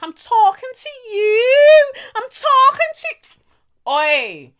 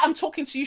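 First: High, loud, slow drawn-out yell; mock drunken yell. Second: "I'm talking to you." with the final "you" clipped short; cut-off ending. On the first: Drunk girl shouting at Kelechi outside, mock drawn-out yell. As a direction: stretch it out like a drunk picking a fight. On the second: Shown as a demonstration. Showing how the girl got cut off mid-word, clipped ending. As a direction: stop dead before finishing "you". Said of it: "She didn't finish the, the U".

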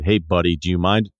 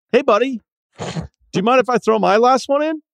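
First: "buddy," hit hard and firm; hard stress on buddy. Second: Much higher, bright friendly voice; friendlier. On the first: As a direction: lean hard on "buddy," so it sounds pushy. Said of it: "I put a hard emphasis on that buddy". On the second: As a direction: sweeten it way up for the kid. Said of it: "Let's try that friendlier". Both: Shown as a demonstration.

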